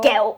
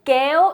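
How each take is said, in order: First: The pitch goes down on the word. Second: The pitch goes up on the word. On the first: It means candy. "going down tone" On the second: It means pull up. "it means pull up"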